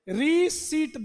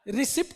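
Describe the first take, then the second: First: No 'p' sound is heard before the final t. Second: A 'p' sound is heard before the final t. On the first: The speaker calls it right. "पी को silent रखते हैं" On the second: The speaker calls it wrong. "रिसिप्ट नहीं बोलते इसको"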